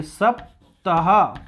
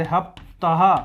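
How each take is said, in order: First: सप्ताह stretched very slowly, every syllable clear with a crisp s; सप्ताह, drawn out syllable by syllable; drawn-out demo word. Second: हप्ताह with an h at the start where सप्ताह has s; हप्ताह, breathy h in place of the s; Iranian ha for sa. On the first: Teacher models सप्ताह very slowly for the class. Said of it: "कि सप्ताह बोलिए". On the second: Teacher imitates the Iranian way of saying हप्ताह, h for s. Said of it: "सा को हा करते थे". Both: Shown as a demonstration.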